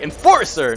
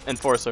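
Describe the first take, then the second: First: It is said with passion and energy. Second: It is said flatly, as if bored. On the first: The speaker calls it right. "you gotta do it like Enforcer" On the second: The speaker calls it wrong. "If you just say Enforcer like you're bored, it's not gonna work"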